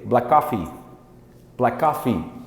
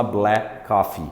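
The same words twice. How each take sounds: First: "Black coffee" run together as one quick word; "Black coffee" with no gap, like blakoffee; fast, linked speech. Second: "black coffee" as two separate, careful words. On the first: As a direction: link "Black" straight into "coffee". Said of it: "quando ele falar rápido". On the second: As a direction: keep "black" and "coffee" apart. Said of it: "que ninguém fala black coffee". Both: Shown as a demonstration.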